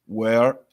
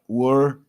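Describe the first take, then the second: First: "Where" with an open eh vowel, rising. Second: "were" with a closed, rounded vowel; closed were sound. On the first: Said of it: "olha aqui um som aberto". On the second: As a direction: contrast "were" closed against "where". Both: Shown as a demonstration.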